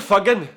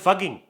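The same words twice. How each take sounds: First: It is said in a Scottish accent, strong g. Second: It is said in an Indian English accent. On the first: "What about Scottish? ... the G really does stand out" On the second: "What about Indian?"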